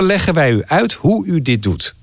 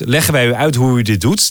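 First: The sentence is said at a normal pace. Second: The sentence is said quickly.

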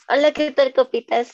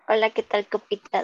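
First: It is said in a livelier, more energetic voice. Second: It is said in a flat, low-energy voice.

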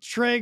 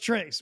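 First: The word ends in a vowel with no final s. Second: The word ends with an added s sound. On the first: The speaker calls it right. "how does anybody ever think tray goes trace?" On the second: The speaker calls it wrong. "probably one of the biggest mispronounced words"

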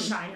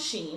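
First: The name rhymes with fine. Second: The name rhymes with rain. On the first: "Some people say Shine" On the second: "I think it's Shein"

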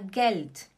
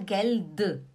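First: The word ends with a voiceless t sound. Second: The word ends with a voiced d sound. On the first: The speaker calls it right. "É como se tivesse um T no final. Você fala Geld" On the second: The speaker calls it wrong. "você não fala Geld"

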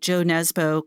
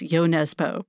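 First: The first name begins with a J sound. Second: The first name begins with a Y sound. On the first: This is an Americanized pronunciation of the name. The speaker calls it wrong. "I'm just going to do the American thing and mispronounce" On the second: This is the pronunciation the publisher gives. The speaker calls it right. "I understand from the publisher Knopf that it's Yo Nesbo"

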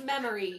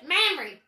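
First: The name is said in a plain accent. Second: The name is said in a Southern US accent.

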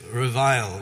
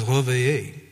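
First: The word is said with an English pronunciation. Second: The word is said with a French pronunciation. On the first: "other folks just say revile" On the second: "in French it's called réveiller"

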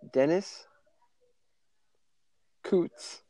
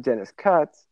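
First: The surname has a long 'oo' vowel. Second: The surname has a short 'uh' vowel. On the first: The speaker calls it wrong. "I had to say it wrong on purpose" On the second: The speaker calls it right. "it's actually Dennis Cutts"

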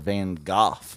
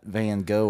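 First: The name is said with French sounds. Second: The name is said with English sounds.

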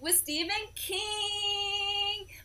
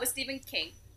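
First: It is said with excitement. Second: It is said without excitement.

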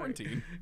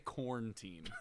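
First: It is said with all three syllables. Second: It is squeezed into two syllables, like corn-teen. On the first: The speaker calls it right. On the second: The speaker calls it wrong.

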